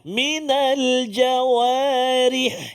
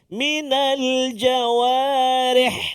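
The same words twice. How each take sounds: First: The last syllable sounds like ri. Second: The last syllable sounds like reh. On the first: The speaker calls it right. "sepatutnya bunyi ri kan?" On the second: The speaker calls it wrong. "jangan kita bujikan dia minal jawarih. Dia jadi reh"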